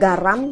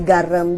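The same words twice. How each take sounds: First: The last syllable keeps its standard vowel. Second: The last syllable has a changed vowel. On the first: This is the formal form. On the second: This is the casual spoken form.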